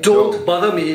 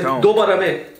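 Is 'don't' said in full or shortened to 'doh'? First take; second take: in full; shortened. First: The word 'don't' is said in full, ending in a t sound. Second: The word 'don't' is shortened to 'doh', with no final t. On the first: This is the standard English form. "Instead of saying don't bother me" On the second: This is the Trinidadian form. "you go say"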